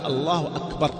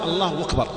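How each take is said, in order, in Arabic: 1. تبدأ الكلمة الثانية بهمزة واضحة. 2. تبدأ الكلمة الثانية بصوت الواو. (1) "لكن في الصلاة حقق الهمزة، قل الله أكبر" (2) "والهمزة ليش أكبر تغلب إلى واو من باب التخفيف"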